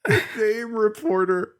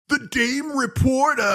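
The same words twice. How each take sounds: First: Lightly voiced dopey henchman; dopey henchman voice echoed. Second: Slow, much higher dopey henchman voice; hammed-up dumb-brute delivery; Rocksteady. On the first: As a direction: repeat it slowly, half in character. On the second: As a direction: drag it out like a dim-witted thug. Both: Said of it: "Rocksteady goes".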